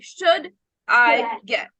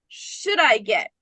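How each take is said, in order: First: Each word is said separately and distinctly. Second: The words run together as one unit. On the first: The speaker calls it wrong. "You're not saying should I get" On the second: The speaker calls it right. "We're connecting should I get"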